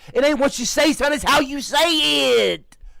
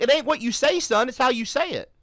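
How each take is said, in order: First: It is said imitating the man's voice. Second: It is said in the speaker's own voice.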